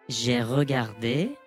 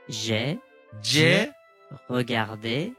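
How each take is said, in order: First: The phrase is spoken at a faster tempo. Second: The phrase is spoken slowly. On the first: "じゃあテンポ上げてお願いします。" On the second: "じゃあこれゆっくりお願いします。"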